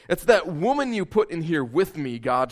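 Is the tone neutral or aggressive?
neutral. It is read in a neutral tone.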